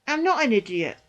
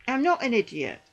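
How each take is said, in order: Both takes have the same delivery.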